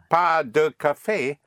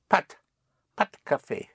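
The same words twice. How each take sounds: First: Both syllables of pas de are fully pronounced. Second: Pas de is contracted into one syllable, like pat. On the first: "instead of saying pas de café" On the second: "what you will hear is, or what you will say is"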